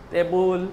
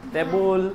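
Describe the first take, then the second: The two takes are said the same way.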